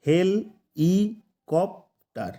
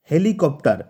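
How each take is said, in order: First: হেল, ই, কপ্টার separated by long pauses; syllable by syllable. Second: Said in the usual way. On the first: Shown as a demonstration. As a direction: break it up as হেল – ই – কপ – টার. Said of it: "চারটা syllable দিয়ে গঠিত হয়েছে". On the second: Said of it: "হেলিকপ্টার ওয়ার্ডটাতে কিন্তু".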